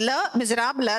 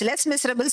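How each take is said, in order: First: The final s sounds are silent. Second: The final s sounds are pronounced. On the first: The speaker calls it right. "It is Le Miserable, that is the miserable" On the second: The speaker calls it wrong. "we usually, uh, I mean, um, pronounce it as Les Miserables. It is not so"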